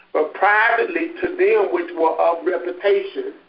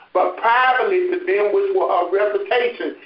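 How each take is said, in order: The two takes are said the same way.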